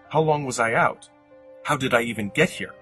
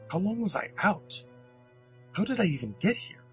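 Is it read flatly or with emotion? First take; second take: flatly; with emotion. First: It is read flatly, without emotion. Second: It is read with confusion and horror.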